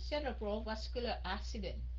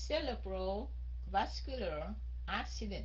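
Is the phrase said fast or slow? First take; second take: fast; slow. First: It is said faster as one smooth phrase. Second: It is said slowly with pauses between words. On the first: "từ từ mình đọc nhanh chút xíu" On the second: "Mình đọc chậm chậm"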